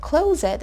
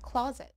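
First: The first vowel is a long O sound. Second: The first vowel is a short O sound. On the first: The speaker calls it wrong. "so it's not closet" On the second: The speaker calls it right. "This one has short O sound"

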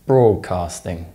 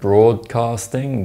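First: The middle consonant is a G sound. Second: The middle consonant is a clear D sound. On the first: The speaker calls it right. "it's replaced with a G sound. So it's pronounced broadcasting" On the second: The speaker calls it wrong. "If you said broadcasting with a D sound, you're wrong"

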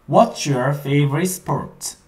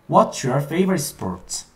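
Both takes have the same delivery.

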